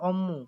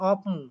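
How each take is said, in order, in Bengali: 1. মাঝের যুক্তব্যঞ্জনটি দ্বিত্ব m হিসেবে উচ্চারিত হয়। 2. মাঝের যুক্তব্যঞ্জনটি p ধ্বনি দিয়ে উচ্চারিত হয়। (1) "সঠিক উচ্চারণ হবে অম্মু" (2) "অনেকে করে অপমু। এটা কিন্তু সঠিক উত্তর না।"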